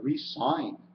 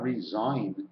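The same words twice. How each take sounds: First: The middle consonant is a hissing s sound. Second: The middle consonant is a buzzing z sound. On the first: This is what the spelling shows. "if you really look at it, it says to resign" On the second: This is how the word is usually said. "How come we don't put resign with a Z?"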